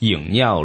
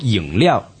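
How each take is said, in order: First: The second syllable begins with an N sound. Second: The second syllable begins with an L sound. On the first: The speaker calls it wrong. "千万别读成饮料了 ... 不用N 音" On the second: The speaker calls it right. "如果讲到呢个饮料"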